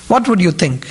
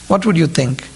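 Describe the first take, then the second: No difference in how they are said.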